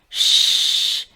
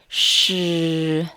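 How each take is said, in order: First: The sound is said without voicing. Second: The sound is said with voicing.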